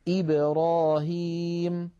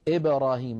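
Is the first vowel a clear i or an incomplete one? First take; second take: clear; incomplete. First: The first vowel is a full, clear i sound. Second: The first vowel is an incomplete, blurred i sound. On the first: The speaker calls it right. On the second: The speaker calls it wrong.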